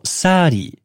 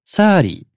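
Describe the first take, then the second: First: The middle consonant is a flapped R-like sound. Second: The middle consonant is a flapped R-like sound.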